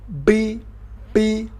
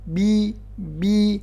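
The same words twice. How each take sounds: First: The b is made with lips tightly folded in. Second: The b is made with lips closed normally. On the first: The speaker calls it wrong. "dua beber dilipat gini... ini juga kurang pas" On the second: The speaker calls it right. "Yang benar biasa aja"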